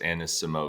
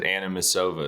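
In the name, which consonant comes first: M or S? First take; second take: S; M. First: The S sound comes before the M sound. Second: The M sound comes before the S sound. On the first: The speaker calls it right. "It's Anasimova" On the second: The speaker calls it wrong. "you do the M and the S. You keep you said Anamasova"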